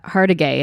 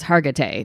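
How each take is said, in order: First: Two consonants in the name are swapped. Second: The consonants are in their usual order. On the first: The speaker calls it wrong. "Like I say Maris- Mariska Hargitay" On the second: The speaker calls it right. "and it's Hargitay"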